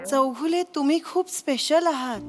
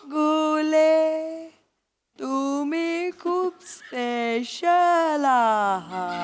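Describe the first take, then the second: First: It is said at normal speed. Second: It is said very slowly, in slow motion.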